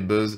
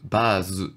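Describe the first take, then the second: First: It is said the English way, ending in z. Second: It is said the Japanese way, like bazu. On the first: "ça vient de l'anglais buzz" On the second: "Eux, ils le prononcent base"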